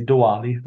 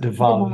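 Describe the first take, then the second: First: It is said the American way. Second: It is said the Indian way.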